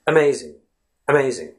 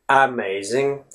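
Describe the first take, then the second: First: "Amazing" starting on a light, unstressed uh; schwa. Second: AMAZING with a clear, full A at the start; over-pronounce the first vowel of "amazing" as an open A; "amazing" said carefully, first letter sounded out as A. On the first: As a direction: barely open the mouth on the first vowel of "Amazing". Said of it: "something like this". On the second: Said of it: "We don't really say amazing". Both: Shown as a demonstration.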